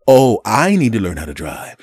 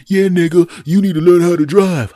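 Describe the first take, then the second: First: Louder, incredulous echo; sarcastic comeback; mock disbelief. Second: High, loud yelled insult; imitated belligerent yell; cursing driver. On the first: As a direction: throw the insult back in disbelief. Mocking the driver's retort back. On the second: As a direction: shout it back like an angry driver. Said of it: "begins cursing at me".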